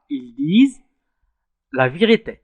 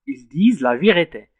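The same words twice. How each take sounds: First: Said in the usual way. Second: "Ils disent la vérité" said slowly, each word spaced out for students; slow, careful dictation pace; slow teaching demo. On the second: Shown as a demonstration. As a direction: spell the sentence out slowly so pupils can follow.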